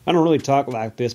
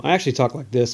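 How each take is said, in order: First: Playful redneck twang; put-on redneck accent. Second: Said in the usual way. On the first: Host admitting the voice is a gimmick, redneck accent. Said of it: "talking like a redneck".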